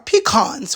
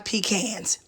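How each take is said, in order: First: The word has the standard, non-Southern pronunciation. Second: The word has a Georgia, Southern pronunciation. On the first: This is how people elsewhere say it. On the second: This is how people say it locally.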